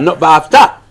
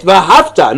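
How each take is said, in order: First: V'ahavta stressed on the second syllable, ve-A-hav-ta, the mistaken reading; wrong stress, middle syllable. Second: V'ahavta with the stress on the final syllable, ve-a-hav-TA; correct stress, last syllable. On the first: Teacher showing the wrong Shema reading, v'ahavta stressed on AH. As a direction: push the stress back onto AH in v'ahavta. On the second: Teacher showing the correct Shema reading, V'ahavta stressed on TA. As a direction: land the weight on TA at the end of V'ahavta. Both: Shown as a demonstration. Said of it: "Is it mil'el or is it milra?".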